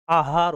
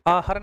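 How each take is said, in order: First: आहार with a long second vowel, aa-haar; proper आहार, said as aahaar; correct form demo. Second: आहार with a shortened second vowel, aa-har; faulty आहार, said as aahar; wrong form demo. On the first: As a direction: lengthen the haa in आहार. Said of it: "होता है". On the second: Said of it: "नहीं होता है". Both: Shown as a demonstration.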